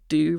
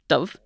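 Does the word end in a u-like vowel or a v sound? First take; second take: u vowel; v sound. First: The word ends in a u-like vowel sound. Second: The word ends in a v sound. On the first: This is the Ulster Irish way. "in Ulster Irish, would tend to be pronounced u rather than v" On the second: This is the way outside Ulster. "rather than v"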